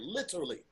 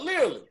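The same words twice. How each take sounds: First: It is said slowly with the T sound. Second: It is said quickly without the T sound. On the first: "It makes you slow down to say it literally" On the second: "I just don't say the T in literally at all"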